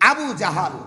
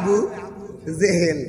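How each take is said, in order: First: The second word is said with 'a' vowels. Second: The second word is said with 'e' vowels. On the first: The speaker calls it right. "ওনার নাম গুলো Abu জাহাল" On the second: The speaker calls it wrong. "আমরা কই আবু জেহেল, এই শব্দটা ভুল"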